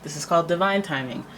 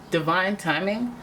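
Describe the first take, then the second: First: Said in the usual way. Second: Slow, dreamy, mystical emphasis on divine timing; magical. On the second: Shown as a demonstration. Tarot reader savoring the phrase, slow and dreamy. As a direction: linger on it like a spell. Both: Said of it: "doesn't that sound magical?".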